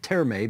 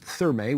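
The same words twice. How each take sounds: First: It begins with a plain t sound. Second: It begins with an English th sound. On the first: "the German pronunciation of the word doesn't pronounce the J, the H rather" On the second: "which I guess is the English pronunciation"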